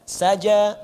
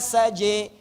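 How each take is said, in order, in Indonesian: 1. Vokal akhirnya adalah bunyi 'a' yang terbuka. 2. Vokal akhirnya condong ke bunyi 'e'. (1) "A, a, a, a, a" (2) "pakai imalah, jadi e"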